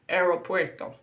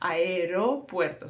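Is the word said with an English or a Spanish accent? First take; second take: English; Spanish. First: Said with an English accent and an English R. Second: Said with a Spanish accent and a soft R. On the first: The speaker calls it wrong. "many English speakers will pronounce something like" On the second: The speaker calls it right. "So it's a very soft R"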